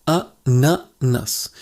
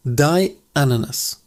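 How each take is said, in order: First: Ananas slowly split into A-na-nas; slow A... na... nas, a pause after each; syllable by syllable. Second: Said in the usual way. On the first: Shown as a demonstration. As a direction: break Ananas into three separate syllables. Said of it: "the sound is quite beautiful". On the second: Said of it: "Almost the same pronunciation".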